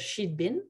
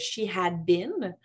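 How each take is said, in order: First: Had is shortened to a d sound. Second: The word had is said in full. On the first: "On pourrait dire she'd been" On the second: "Ça peut être she had been"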